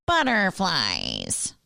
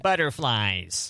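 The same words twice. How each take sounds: First: Slow, dragged-out half-hearted grumble; imitating a grumpy voice. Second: Slow, dragged-out mock grumble; half-hearted grumpy voice. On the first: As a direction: mimic the reluctant husband. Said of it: "And Matt goes". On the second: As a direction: drag the word like a reluctant grump. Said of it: "that went".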